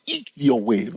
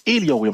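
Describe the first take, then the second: First: Elliott in a claimed Texas accent; Texas-accented take on Elliott wave. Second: Elliott said as the version being rejected; the not-this-way take of Elliott; contrasting accent demo. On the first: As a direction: say Elliott with a Texas accent, stressing the first syllable. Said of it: "I'm speaking with my Texas accent". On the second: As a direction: say Elliott higher and quicker, as the wrong version. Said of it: "I'm not saying Elliott wave". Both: Shown as a demonstration.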